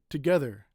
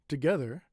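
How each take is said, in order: The two takes are said the same way.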